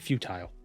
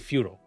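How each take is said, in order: First: It is said in a British accent. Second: It is said in an American accent. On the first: "somebody from the U K might say" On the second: "So I say"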